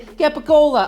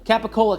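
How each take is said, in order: First: It is said with a thick Italian accent. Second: It is said with a plain American accent.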